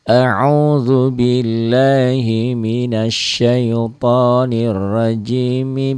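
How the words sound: Rajimi runs straight into the next phrase. All parts are read as one connected stretch. "Mibis tuh, mibis. Jadi ujungnya dibaca"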